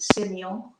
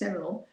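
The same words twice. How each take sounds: First: It is said with a French pronunciation. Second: It is said as spelled, Australian style. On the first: This is how it is said in France. "you know they pronounce it Semillon" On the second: This is how it is said in Australia. "in Australia, of course, it's Semillon"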